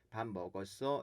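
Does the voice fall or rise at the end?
rises. The pitch rises at the end. It asks whether the listener has eaten. "끝을 올려주게"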